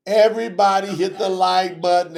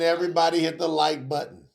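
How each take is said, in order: First: Raised, higher push on everybody; rally the room on the first call; louder call-out. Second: Said in the usual way. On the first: Acted. Host calling out to viewers, louder push.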